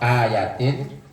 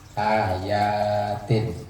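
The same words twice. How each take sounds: First: The middle vowel is kept short. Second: The middle vowel is held long. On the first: It means a single verse. "tapi kalau ayatin cuma satu" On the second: It means several verses. "Kalau yaknya dibaca panjang itu beberapa ayat. Ayatin itu jamak"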